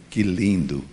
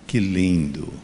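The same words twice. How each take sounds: First: It is said in a plain, neutral way. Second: It is said with savoring, relishing delight.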